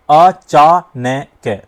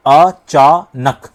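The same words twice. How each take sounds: First: अचानक pulled apart very slowly with नक broken up too; wrong split. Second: अचानक said very slowly as "अ-चा-नक"; syllables split right. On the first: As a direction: break even the नक of अचानक. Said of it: "नहीं, अचानक नहीं आ रहा है इस पे". (नक को भी तोड़कर गलत, बहुत धीरे अचानक) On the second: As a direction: pause between अ, चा and नक. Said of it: "अलग अलग भी बोलोगे तो ध्वनि वही आ रही है". ("अ-चा-नक" तीन अक्षर अलग अलग, बहुत धीरे) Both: Shown as a demonstration.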